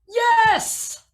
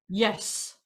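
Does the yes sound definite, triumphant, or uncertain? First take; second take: triumphant; definite. First: Triumphant, starting high and coming down. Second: Definite, one short strong single note.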